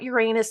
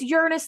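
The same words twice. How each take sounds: First: The stress is on the second syllable. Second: The stress is on the first syllable. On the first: This pronunciation sounds like a childish joke. The speaker calls it wrong. "not Uranus. My inner child cannot say Uranus fifty times a day" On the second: This is the pronunciation the speaker chooses to use. The speaker calls it right. "it's Uranus"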